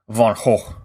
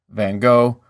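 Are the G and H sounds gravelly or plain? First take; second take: gravelly; plain. First: The consonants are harsh, gravelly throat sounds. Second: The consonants are plain, without throaty friction. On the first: "with each H gravelly and full of mucus" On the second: "what my listeners are more likely to be familiar with"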